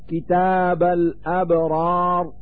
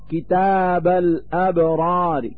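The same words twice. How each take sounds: First: The final r is heavy, with no vowel. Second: The final r is light, with a faint vowel. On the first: "هذا في حال السكون" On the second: "وفي حال الروم ترقق"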